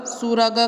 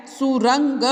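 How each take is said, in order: First: सुरग said flatly as su-rag with no nasal before the g; wrong reading, no nasal. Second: सुरंग said su-rung with a clear ng before the g; correct nasal reading. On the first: Teacher showing children the misspelt word read wrong, without the nasal. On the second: Teacher giving children the correct word with the nasal ng. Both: Shown as a demonstration. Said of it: "सुरग कुछ नहीं होता है".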